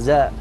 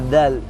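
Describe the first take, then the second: First: The first consonant is a 'z' sound. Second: The first consonant is a 'dh' sound. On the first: The speaker calls it wrong. "ينطقونها. زاء" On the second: The speaker calls it right. "في الذال ينطقونها"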